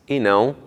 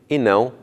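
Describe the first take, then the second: No difference in how they are said.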